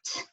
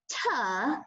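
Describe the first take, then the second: First: The T is cut off with no vowel. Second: The T is followed by an uh vowel. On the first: The speaker calls it right. "cut off the uh, cut it right off, and say t" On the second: The speaker calls it wrong. "It's not tuh"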